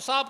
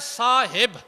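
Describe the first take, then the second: First: No vowel is heard between h and b. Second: An 'i' vowel is heard between h and b. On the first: The speaker calls it wrong. "उसमें हे को दरमियान से अज़फ़ ही कर देते हैं" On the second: The speaker calls it right. "हे के नीचे कसरा है"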